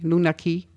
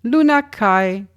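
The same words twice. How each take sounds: First: "Ki" said like English "key"; Ki pronunciation. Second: "Kai" said to rhyme with "eye"; Kai pronunciation. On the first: Host corrects to a likelier reading, Ki pronunciation. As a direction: say "Ki" with a long ee vowel. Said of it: "or [name], [name], probably". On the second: Host tries one reading of an artist's name, [name] pronunciation. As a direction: say "Kai" with an open gliding vowel, higher pitched. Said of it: "or Ki". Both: Real, not acted.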